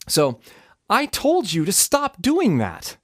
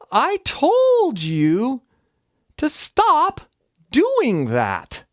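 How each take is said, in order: First: The phrase is said at a normal speed. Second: The phrase is said very slowly.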